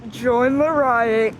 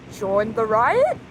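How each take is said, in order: First: "Join the riot." slow, low, falling and settled; firm decision. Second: "Join the riot?" slow and low, rising on "riot"; hesitant question. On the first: Recruit agrees to join the riot, slow firm statement. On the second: Recruit unsure about joining the riot, slow rising question. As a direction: ask "Join the riot?" unsure, drawn out with a lift on "riot". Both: Acted.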